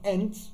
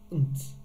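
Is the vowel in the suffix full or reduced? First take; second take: full; reduced. First: The suffix has a full, clear vowel. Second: The suffix has a weak, reduced vowel. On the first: The speaker calls it wrong. "not ent or ant" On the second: The speaker calls it right. "Then we've got unt"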